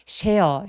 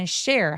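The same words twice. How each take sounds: First: The opening sh sound is soft and light. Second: The opening sh sound is strong and tense. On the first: The speaker calls it wrong. "share보다는" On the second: The speaker calls it right. "share 하면서 쌍시오처럼 굉장히 세게 발음해 주시는 게 좋고요"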